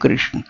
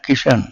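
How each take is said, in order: First: The name is said in its full 'krishna' form. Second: The name is said as a short 'kishan' form. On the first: This is the standard form of the name. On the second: This is how Punjabi people say the name.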